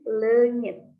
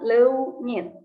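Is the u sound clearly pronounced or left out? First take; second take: no u; clear u. First: The vowel is said without a clear u. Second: The vowel is said with a clear u sound. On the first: The speaker calls it right. "tapi lengit. U-nya gak usah diucapkan jelas ya" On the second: The speaker calls it wrong. "bukan leunyit"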